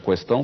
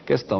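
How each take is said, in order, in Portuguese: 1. A palavra começa com um som kw. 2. A palavra começa com um som k simples. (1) "questão com trema" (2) "a grafia questão sem trema e a pronúncia questão"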